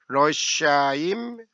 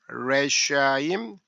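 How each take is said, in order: First: The first vowel sounds like Korean eo. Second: The first vowel sounds like Korean e. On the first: "이 쉐와는 어" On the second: "에"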